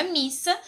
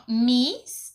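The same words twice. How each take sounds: First: Said in the usual way. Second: "missa" split as mis, pause, sa; split into syllables. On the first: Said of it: "Se nós formos separar a palavra". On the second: Shown as a demonstration. Teacher showing that the double s separates, "missa" split into two syllables. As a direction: break "missa" between the two s letters. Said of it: "Se nós formos separar a palavra missa".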